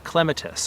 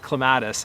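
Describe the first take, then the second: First: It is said with a British pronunciation. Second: It is said with an American pronunciation.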